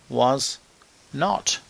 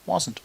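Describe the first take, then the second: First: Two separate full words are said. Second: The words are contracted into one syllable.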